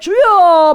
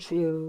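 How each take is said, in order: First: It is said fervently and earnestly. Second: It is said casually and indifferently.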